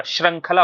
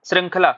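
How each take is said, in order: First: श्रृंखला said as shrang-khala; corrected ra sound. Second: श्रृंखला said as shring-khala; wrong ri sound. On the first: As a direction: put an a in the first syllable of श्रृंखला. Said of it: "श्रृंखला होता है". (श्रृंखला, श्रं जैसा) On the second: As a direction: put an i in the first syllable of श्रृंखला. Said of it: "श्रृंखला नहीं होता है आपका". (श्रृंखला, श्रिं जैसा) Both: Shown as a demonstration.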